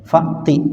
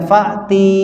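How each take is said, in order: First: The final vowel is short. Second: The final vowel is long. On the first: The speaker calls it right. "Fa'ti pendek ya" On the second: The speaker calls it wrong. "Jangan dibaca fa'ti"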